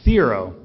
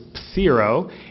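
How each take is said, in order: First: The word starts without a p sound. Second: The word starts with a p sound.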